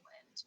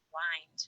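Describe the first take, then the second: First: The word rhymes with pinned. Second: The word rhymes with find. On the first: It means moving air. "Then it rhymes with pinned" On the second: It means to turn or wrap around. "Then it rhymes with find"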